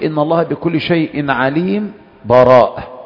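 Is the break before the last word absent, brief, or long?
brief. There is a short stop without a breath before براءة. The verses are briefly separated without breaking the recitation. "أن تقف من غير نفس"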